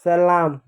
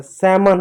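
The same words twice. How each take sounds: First: सलाम said as "sa-LAAM", with the l sounded; mispronunciation. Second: सैमन said as "SAM-un", silent l; correct pronunciation. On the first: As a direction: say सलाम with a clear l and long aa. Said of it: "गलत होता है". (सलाम, 'ल' बोलकर गलत उच्चारण) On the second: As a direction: say सैमन without any l. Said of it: "सैमन होता है". (सैमन, 'ल' चुप रखकर सही उच्चारण) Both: Shown as a demonstration.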